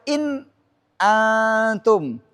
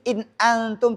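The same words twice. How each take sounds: First: A brief pause comes before the hamzah. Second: The words run together with no pause. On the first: The speaker calls it wrong. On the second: The speaker calls it right.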